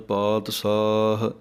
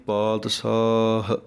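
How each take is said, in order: The two takes are said the same way.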